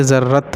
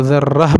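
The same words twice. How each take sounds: First: ذرت closed on a clear t; wrong t ending. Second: ذرہ stopped on a final h; ta becomes h. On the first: Teacher showing what to avoid, ذرت ending in t. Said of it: "نہ کہ ذرت ہوگا". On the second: Teacher explaining the stop, ذرہ ending in h. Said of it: "اس کو ہا بنا دیں گے". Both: Shown as a demonstration.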